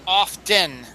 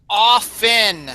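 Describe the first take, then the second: First: "often" as OFF-ten, slowly; slow wrong-example "often" with a spoken T; sounded T. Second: "often" as OFF-en, no T; crisp, careful "often" pronounced OFF-en; silent T. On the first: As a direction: hit the T in "often". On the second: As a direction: say "often" with the T dropped. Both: Shown as a demonstration. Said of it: "The T is silent".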